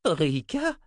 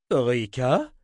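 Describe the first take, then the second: First: High-pitched astonished question; old wizard taken by surprise. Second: Louder questioning call; calling across. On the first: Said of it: "s'étonna le vieux sorcier". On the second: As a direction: toss the name across the tent. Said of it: "lança Zimmer à l'autre bout". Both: A narrator's reading.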